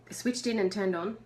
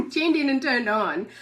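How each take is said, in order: First: Said in the usual way. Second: The right phrase said through laughter; corrected, laughing. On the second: Real, not acted. Correcting her slip for viewers, still laughing. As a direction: fix the words while still laughing. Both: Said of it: "Tu-, whatever".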